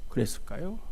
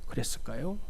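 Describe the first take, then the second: The two takes are said the same way.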